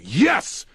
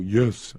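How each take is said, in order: First: It is yelled loudly and strongly. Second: It is said quietly and weakly.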